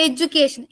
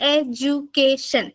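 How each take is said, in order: First: Said in the usual way. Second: എഡ്യൂക്കേഷൻ said slowly, each of its four syllables apart; slow teacher count of എഡ്യൂക്കേഷൻ's syllables. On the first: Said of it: "ആ വാക്കിനെ ഒന്ന് ഉച്ചരിച്ച് നോക്ക്". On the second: Shown as a demonstration. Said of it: "നാല് syllable".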